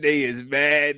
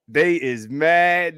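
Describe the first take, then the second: First: Said in the usual way. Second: Slow gloat. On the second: Real, not acted.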